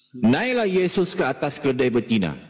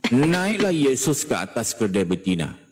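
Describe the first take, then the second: No difference in how they are said.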